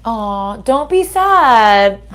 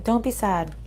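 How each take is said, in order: First: Tender reassurance. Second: Said in the usual way. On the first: Real, not acted. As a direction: stretch it out gently to console a sad listener. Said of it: "consoling the viewer, drawn out". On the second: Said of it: "same words, said plainly".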